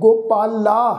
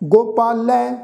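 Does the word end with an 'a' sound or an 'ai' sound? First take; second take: a; ai. First: The word ends with a plain 'a' vowel. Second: The word ends with an 'ai' vowel. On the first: The speaker calls it wrong. "इस ढंग नाल नहीं" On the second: The speaker calls it right. "हाहे नूं सिहारी दे नाल"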